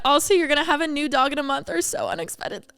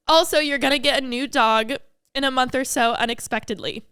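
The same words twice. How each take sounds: First: Tearful. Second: Composed, still teary. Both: Real, not acted. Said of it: "I was not expecting to cry".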